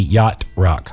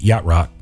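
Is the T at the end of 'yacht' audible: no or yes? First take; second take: yes; no. First: The T at the end of yacht is pronounced. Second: The T at the end of yacht is dropped. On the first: "But you pronounce the T" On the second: "if you don't pronounce the T"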